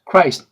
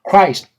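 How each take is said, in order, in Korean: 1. 이 단어는 한 음절로 발음해요. 한 호흡으로요. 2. 이 단어는 한 음절로 발음해요. 한 호흡으로요.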